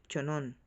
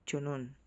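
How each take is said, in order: No difference in how they are said.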